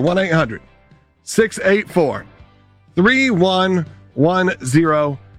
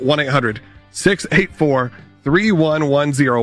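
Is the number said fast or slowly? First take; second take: slowly; fast. First: The number is said at a slower pace. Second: The number is said at a quicker pace.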